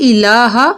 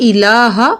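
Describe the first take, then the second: No difference in how they are said.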